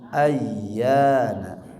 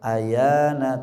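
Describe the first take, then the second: First: The y sound is held long and doubled. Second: The y sound is short and single. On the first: The speaker calls it right. "tapi ayyana" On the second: The speaker calls it wrong. "tidak boleh dibaca ayana"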